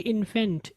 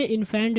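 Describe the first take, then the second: First: इन्फेंट with a short e; light short ending on इन्फेंट; correct pronunciation. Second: इन्फेंट wrongly with a broad ae; wide second vowel in इन्फेंट; mispronunciation demo. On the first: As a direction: model इन्फेंट as IN-fent. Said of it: "बल्कि इन्फेंट". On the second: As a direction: say इन्फेंट as in-FAENT. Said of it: "इन्फेंट भी नहीं". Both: Shown as a demonstration.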